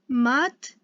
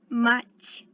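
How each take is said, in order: First: The final T is hard, without softening. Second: The final T is soft, palatalized. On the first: The speaker calls it wrong. "it's not mat" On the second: The speaker calls it right. "That soft T sound"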